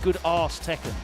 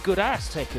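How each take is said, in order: First: It uses a long southern English 'arse' vowel. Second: It uses a short flat 'ass' vowel. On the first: "I can't help but say good ass Tekken" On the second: "It should be good ass Tekken"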